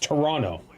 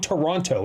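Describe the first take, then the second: First: The middle T is dropped. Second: The middle T is clearly pronounced. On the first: The speaker calls it right. "It's Toronto. There's no T in the middle" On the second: The speaker calls it wrong. "There's no Toronto"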